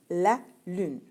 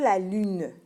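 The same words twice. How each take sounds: First: The final e is silent. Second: The final e is sounded. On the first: The speaker calls it right. "le E, il est comme muet. Écoute bien" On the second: The speaker calls it wrong. "On ne dit pas"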